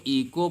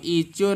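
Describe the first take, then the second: First: ईको said with a k sound and a silent h, as ee-ko; teacher gives the correct reading ईको with k; right reading echo. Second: ईचो said with a ch sound, as ee-cho; teacher shows the wrong reading ईचो with ch; wrong reading echo. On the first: सही उच्चारण ईको, क के साथ. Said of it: "अब ईचो नहीं पढ़ेंगे". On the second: गलत उच्चारण ईचो, च के साथ. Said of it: "इसको ईको पढ़ेंगे". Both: Shown as a demonstration.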